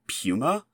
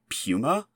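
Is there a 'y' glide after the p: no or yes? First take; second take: yes; yes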